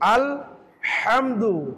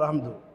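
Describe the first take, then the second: First: The h sound is pressed in the throat. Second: The h sound is light and breathy. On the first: The speaker calls it right. "এই হাটাকে কণ্ঠনালী চাপ দিয়ে আমাকে উচ্চারণ করতে হবে" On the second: The speaker calls it wrong. "Normal ভাবে আমাদের হয়ে যায়"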